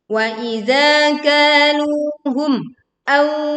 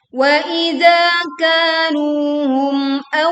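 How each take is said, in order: First: The sound breaks off after the final m. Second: The final m flows on with no break. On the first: The speaker calls it wrong. "Terjadi pemutusan suara di sini dan itu adalah keliru" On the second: The speaker calls it right. "kita baca jelas mim sukun tanpa memutus suaranya atau saktah ataupun memantulkan"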